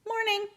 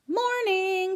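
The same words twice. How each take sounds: First: Tiny high hamster squeak; squeaky hamster. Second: High, cheery good morning. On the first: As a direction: squeak a small good morning. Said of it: "I squeaked". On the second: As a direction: greet the class brightly. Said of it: "she said in a cheery voice". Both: A narrator's reading.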